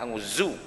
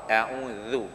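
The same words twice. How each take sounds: First: The last syllable has a pressed z consonant. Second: The last syllable has a soft th-like consonant. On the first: The speaker calls it wrong. "jangan a'udzu. Bila tekan zu jadi huruf zai" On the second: The speaker calls it right. "jangan lupa a'udzu"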